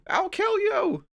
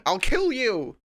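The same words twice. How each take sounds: First: Very high, slow shrieking rage; berserk rage. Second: Loud, higher furious yell; berserk rage. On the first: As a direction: shriek the threat like a maniac. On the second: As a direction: scream it at the computer. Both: Pretend. Yelling at the program.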